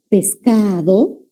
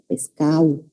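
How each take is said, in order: First: Pescado said slowly with a clear D, pes-ca-do; careful pescado. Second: Pescado as pescau, D gone, quick and soft; dropped D. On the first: Teacher showing the full D in pescado. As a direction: spell out pescado with every sound. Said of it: "característica de elidir la D". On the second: Teacher imitating fast coastal speech dropping the D. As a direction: swallow the D in pescado. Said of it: "dicen en el habla rápida". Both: Shown as a demonstration.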